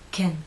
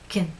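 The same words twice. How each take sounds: First: The vowel is short, lips slightly relaxed. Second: The vowel is weak, lips fully relaxed. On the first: "the unstressed pronunciation" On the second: "the alternative unstressed pronunciation"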